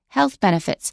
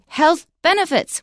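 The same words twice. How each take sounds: First: The stress falls on the first word. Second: The stress falls on the second word. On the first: The speaker calls it right. "We don't stress benefits because that's the word that's being modified" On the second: The speaker calls it wrong. "we don't say"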